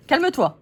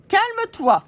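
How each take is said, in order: First: A little high and louder, telling her to calm down; first calme-toi, only a touch raised; puppet calming. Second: Much higher and louder calme-toi, exasperated; puppet yelling. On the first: Puppet tells other to calm. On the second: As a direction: shriek calme-toi at the other doll. Puppet repeats, more heated. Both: Acted.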